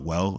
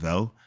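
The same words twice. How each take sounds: First: It starts with a plain English W sound. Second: It starts with a German-style V-like sound.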